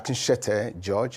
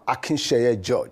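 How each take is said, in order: First: The surname's last syllable begins with a t sound. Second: The surname's last syllable begins with a y sound. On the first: The speaker calls it wrong. "let me correct the mistake in, my, in the pronunciation of my name. I'm not uh" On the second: The speaker calls it right. "I'm Akinsheye George"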